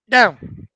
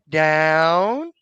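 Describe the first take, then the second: First: The word is short, sharp and louder. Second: The word is long and drawn out. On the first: The speaker calls it right. "I want that down to be a quarter inch, ... a little bit louder" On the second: The speaker calls it wrong.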